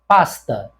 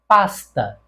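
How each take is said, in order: First: The s before t sounds like s. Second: The s before t sounds like s.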